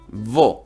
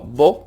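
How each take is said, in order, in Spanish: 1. El primer sonido se alarga. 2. El primer sonido se mantiene corto. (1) "alargas la W" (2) "no vo"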